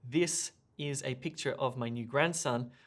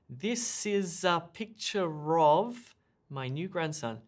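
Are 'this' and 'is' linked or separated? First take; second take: separated; linked. First: 'This' and 'is' are said separately. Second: 'This' and 'is' are linked together. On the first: The speaker calls it wrong. "we don't say" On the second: The speaker calls it right. "We say"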